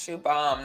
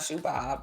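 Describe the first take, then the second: First: The name ends with an 'm' sound. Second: The name ends with a 'b' sound. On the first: The speaker calls it right. "Yes, Shoe Bomb" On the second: The speaker calls it wrong. "not Shoe Bob"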